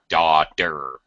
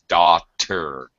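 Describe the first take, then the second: First: The middle consonant sounds like a soft d. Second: The middle consonant is a clear t. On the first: "American accent. It sounds like a D" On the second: "British accent. They pronounce their T's, all their T's"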